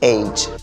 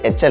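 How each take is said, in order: First: The letter name is drawn out and flattened. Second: The letter name is said short and clipped. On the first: The speaker calls it right. "ഒന്ന് കുറച്ച് നീട്ടി പരത്തിയാൽ മതി" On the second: The speaker calls it wrong. "H അല്ല"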